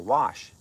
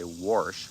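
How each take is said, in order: First: It is said without an r: wash. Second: It is said with a Midwest r: warsh.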